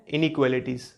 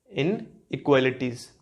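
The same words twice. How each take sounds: First: Said in the usual way. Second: "inequalities" slowly split after "इन"; word broken down. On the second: Shown as a demonstration. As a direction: say "इन", pause, then the rest of "inequalities". ("Inequalities" को "इन" के बाद रुककर, धीरे बोलना) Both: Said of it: "इनको हम बोलते हैं".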